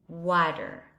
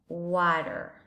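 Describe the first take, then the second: First: It is said in an American English accent. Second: It is said in an American English accent.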